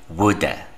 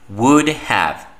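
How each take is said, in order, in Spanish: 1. 'Have' está reducido y unido en una sola palabra. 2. 'Have' se pronuncia completo, como una palabra separada.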